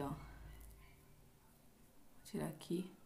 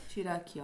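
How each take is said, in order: First: Unvoiced, murmured under her breath; whisper. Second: Said in the usual way. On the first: Real, not acted. Focused on peeling the mask, whispering to herself. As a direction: whisper it while concentrating.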